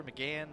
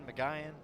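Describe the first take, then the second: First: "McGahan" with a flat 'a' as in "gan"; short-a pronunciation. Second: "McGahan" with 'eye' in the second syllable; long-i pronunciation. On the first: Unsure of the pitcher's name, "McGahan" said muh-GAN. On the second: Unsure of the pitcher's name, "McGahan" said muh-GUY-an. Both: Shown as a demonstration. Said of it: "I wasn't sure".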